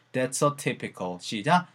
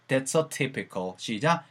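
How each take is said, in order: Both takes have the same delivery.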